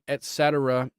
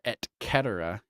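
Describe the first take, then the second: First: It is said with an everyday English pronunciation. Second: It is said with a Latin-style pronunciation.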